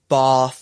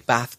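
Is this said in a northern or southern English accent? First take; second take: southern; northern. First: It is said in a southern English accent. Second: It is said in a northern English accent. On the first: "I don't say bath" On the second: "I'm from the middle, or you might say the north of England. I say bath"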